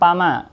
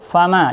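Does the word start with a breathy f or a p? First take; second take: p; f. First: It begins with a p sound. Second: It begins with a breathy f sound. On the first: The speaker calls it wrong. "jangan pama" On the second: The speaker calls it right. "fa ada anginnya"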